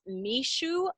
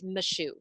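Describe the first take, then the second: First: The vowel in 'my' sounds like 'mi'. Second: The vowel in 'my' sounds like 'ma'. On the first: The speaker calls it wrong. "it's not mishu like in the Geordie accent" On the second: The speaker calls it right. "it's mashu"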